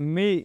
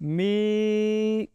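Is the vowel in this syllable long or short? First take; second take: short; long. First: The vowel is short and not drawn out. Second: The vowel is long and drawn out. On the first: "میم کے نیچے صرف اگر زیر ہے تو ہم پڑھیں گے می" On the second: "کھینچ کے پڑھا"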